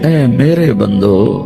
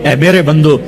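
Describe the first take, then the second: First: It is said in a warm, tender tone. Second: It is said in a plain, neutral tone. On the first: The speaker calls it right. "जैसे माँ कहती मेरा लाल मेरा लाल मेरा बच्चा" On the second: The speaker calls it wrong. "इस लहजे में नहीं।"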